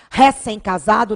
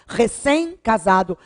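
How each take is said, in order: First: The stress in 'recém' is on the first syllable. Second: The stress in 'recém' is on the last syllable. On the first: The speaker calls it wrong. "Não se diz recém-casado" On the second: The speaker calls it right. "é recém-casado"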